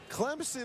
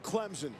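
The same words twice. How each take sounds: First: A slight P sound comes before the S. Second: The S is voiced like a Z sound. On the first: The speaker calls it right. "Clemson is okay. Just a hint of a P" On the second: The speaker calls it wrong. "Don't ever go Clemson. Never the Z"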